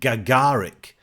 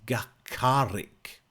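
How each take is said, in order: First: The middle consonant is a hard G sound. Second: The middle consonant is not a hard G sound. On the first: The speaker calls it wrong. "I want to say it with a kind of a G" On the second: The speaker calls it right. "But it's it's not. It's Gagarik"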